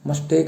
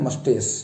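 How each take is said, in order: First: The word ends with a K sound. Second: The word ends with an S sound. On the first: The speaker calls it wrong. "मस्टेक ऐसे नहीं" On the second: The speaker calls it right. "इसका सही उच्चारण है मस्टेस"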